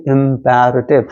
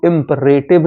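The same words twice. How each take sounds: First: इम्पेरेटिव said im-PE-re-tiv, with an open e in the second syllable; correct pronunciation. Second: इम्परेटिव said as im-PUR-e-tiv, the wrong way; wrong pronunciation. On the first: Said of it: "इसको हम पढ़ते हैं इम्पेरेटिव". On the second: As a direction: give इम्परेटिव as im-pur-e-tiv, the reading to avoid. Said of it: "इसको हम इम्परेटिव नहीं पढ़ते". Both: Shown as a demonstration.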